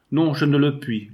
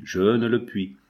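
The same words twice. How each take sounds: First: Louder, higher cry on non; a mother refusing her daughter's departure; anguished cry. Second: Said in the usual way. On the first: A narrator's reading. Mother refusing, cry out louder. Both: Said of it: "La mère s'écria".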